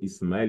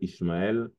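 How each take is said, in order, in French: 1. La consonne du milieu est un son S. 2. La consonne du milieu est un son SH.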